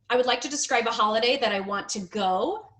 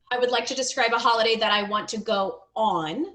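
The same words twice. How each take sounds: First: "go" rising, left hanging; rising unfinished ending. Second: "on" set apart and rising at the end; stressed added word. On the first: Teacher reads learner's sentence, rising on "go". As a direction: read it briskly, lifting on "go". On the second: Teacher corrects learner's sentence, emphatic "on". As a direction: read briskly, then land clearly on "on". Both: Shown as a demonstration.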